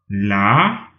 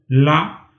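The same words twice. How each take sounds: First: The syllable is said with a rising pitch. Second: The syllable is said on a mid level pitch. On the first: "d'en montant" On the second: "d'en moyen"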